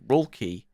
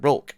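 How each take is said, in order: First: The name ends with a final vowel sound. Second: The name ends on a consonant, no final vowel. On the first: "he's called Rulky" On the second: "I didn't pronounce the e"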